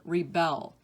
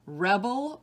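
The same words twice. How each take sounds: First: Rih-BELL, second syllable stressed. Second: REB-el, first syllable stressed. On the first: Teacher giving other pronunciation, rebel as rih-BELL. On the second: Teacher reading word list to students, rebel as REB-el. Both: Shown as a demonstration. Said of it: "give you both pronunciations".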